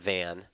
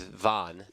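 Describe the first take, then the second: First: The vowel sounds like 'an'. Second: The vowel sounds like 'on'. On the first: The speaker calls it wrong. "not Van" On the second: The speaker calls it right. "correct pronunciation is Von"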